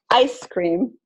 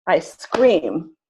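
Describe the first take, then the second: First: "Ice cream" with ICE strong, cream lighter; stress on first word. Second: "ice cream" said as I SCREAM, long second syllable; stress on second word. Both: Shown as a demonstration. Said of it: "they just have a different stress".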